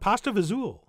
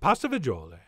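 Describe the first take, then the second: First: The second word is clipped to one syllable. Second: The second word is said with all its syllables. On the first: The speaker calls it wrong. "we are pronouncing it and spelling it wrong" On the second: The speaker calls it right. "It's really, of course"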